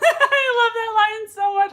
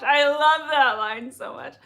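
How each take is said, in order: First: Breaks into real laughter on the line; laughing. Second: Said in the usual way. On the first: Real, not acted. Host laughing at a chat comment she loves. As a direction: laugh it out while reading the comment.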